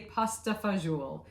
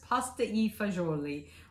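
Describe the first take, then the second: First: It is said with an American pronunciation. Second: It is said with an Italian pronunciation.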